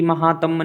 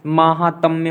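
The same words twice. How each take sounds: First: महात्म्य said with a short first vowel, məhatəm, as the error; wrong form. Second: महात्म्य said with a long first vowel, maːhatəm, stressed; correct form. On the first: Teacher shows students the wrong spelling, short first vowel. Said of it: "नहीं होता है". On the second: Teacher gives students the correct form, long first vowel. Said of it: "महात्म्य होता है". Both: Shown as a demonstration.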